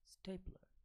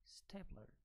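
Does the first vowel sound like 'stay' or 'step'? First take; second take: stay; stay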